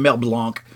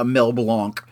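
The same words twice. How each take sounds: First: Said in the usual way. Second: "Mel Blanc" with "Blanc" said the French way, a nasal blahnk; super fancy. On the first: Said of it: "I don't know why I keep saying it like that". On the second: Real, not acted. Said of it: "I keep saying it, like, super fancy".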